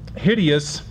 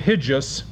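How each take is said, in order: First: The word is said in three syllables. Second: The word is said in two syllables.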